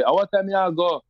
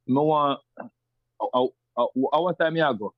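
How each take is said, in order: First: Rural Jamaican patois, pitched higher. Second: Kingston patois. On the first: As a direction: rougher country Jamaican patois, raised. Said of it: "someone from say". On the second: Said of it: "I could say something like". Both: Shown as a demonstration.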